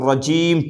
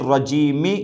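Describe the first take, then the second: First: The word ends on a bare m sound. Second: The word ends with a short i vowel. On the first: The reader stops on this word. The speaker calls it right. "मीम के ऊपर जस्म दे देंगे और रजीम पढ़ेंगे" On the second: Reading continues without stopping. The speaker calls it wrong. "नहीं पढ़ेंगे"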